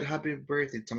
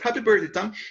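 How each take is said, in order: First: It is said flatly without raised voice. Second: It is said happily with a raised voice.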